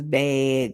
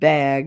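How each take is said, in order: First: The vowel sounds like the one in 'hey'. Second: The vowel sounds like the one in 'hag'. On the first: This is how someone else says it. "that's how Jeremy says bag" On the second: This is the ordinary way to say it. "not bag, not as in hag"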